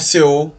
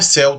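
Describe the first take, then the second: First: It is spelled out like the letters C-E-O. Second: It is said as the single word céu. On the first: "Não é C O" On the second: "Não é céu também"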